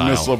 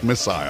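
First: The second syllable is reduced, like 'sul'. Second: The second syllable rhymes with 'aisle'. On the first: "used to missile" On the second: "That's how they say it in England"

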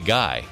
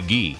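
First: Said like the English word guy. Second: Said the French way, sounding like ghee. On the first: "So why can't I say Guy?" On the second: "it should be Guy, respect of his great career in hockey and in French Canadians"

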